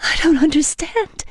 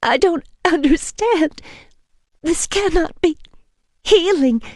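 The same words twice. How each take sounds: First: High, tearful confusion; bewildered through tears; weeping. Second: High, tearful disbelief; bewildered through tears; weeping. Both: A narrator's reading. Woman weeps to vampire, tearful. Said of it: "I said, weeping".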